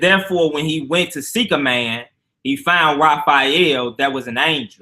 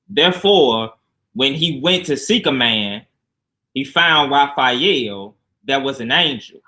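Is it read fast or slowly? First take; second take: fast; slowly. First: It is read fast. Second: It is read slowly.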